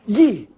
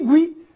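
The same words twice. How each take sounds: First: The u is silent, giving a plain g sound. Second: The u is pronounced, giving a gw sound. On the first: "gui mudo" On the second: "gui pronunciado"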